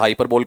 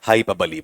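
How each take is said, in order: First: The word ends in a silent final vowel. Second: The word ends with a pronounced 'ee' vowel. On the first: The speaker calls it wrong. "बहुत लोग हाइपरबोल हाइपरबोल कर रहे हैं" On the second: The speaker calls it right. "क्या बोलेगा आपका? हाइपरबली बोलेगा।"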